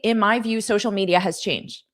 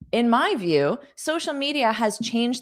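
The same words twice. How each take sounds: First: The phrase runs on with no pause after view. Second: There is a clear pause after view. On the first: The speaker calls it wrong. "So you don't want to say" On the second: The speaker calls it right. "I also recommend adding a pause after the comma"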